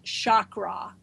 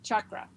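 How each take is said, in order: First: The first syllable does not sound like 'chuck'. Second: The first syllable sounds like 'chuck'. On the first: The speaker calls it wrong. "it is not pronounced chakra" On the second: The speaker calls it right. "think of a Chuck E. Cheese"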